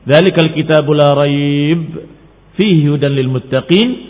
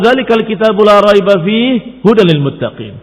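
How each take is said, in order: First: There is a pause before the word fihi. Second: There is a pause after the word fihi.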